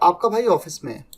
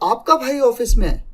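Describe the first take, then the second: First: The sentence is said with neutral emphasis. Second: Strong emphasis falls on 'आपका भाई'. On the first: It simply states where the brother is. "एक तरीका तो ये बोलने का" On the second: It is your brother and nobody else. "जब आपके भाई पे जोर दिया"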